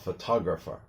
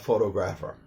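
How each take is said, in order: First: The stress is on the second syllable. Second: The stress is on the first syllable. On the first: The speaker calls it right. "So a photographer" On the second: The speaker calls it wrong. "not a photographer"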